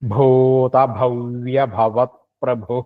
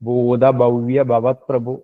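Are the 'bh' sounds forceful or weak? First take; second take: forceful; weak. First: The 'bh' sounds are strong, breathy and resonant. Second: The 'bh' sounds are soft, with little breath. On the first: The speaker calls it right. "കുറച്ച് ശക്തി കൊടുക്കുക തന്നെ വേണം" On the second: The speaker calls it wrong. "നമ്മൾക്കൊക്കെ പലപ്പോഴും പറ്റുന്നതാണ്"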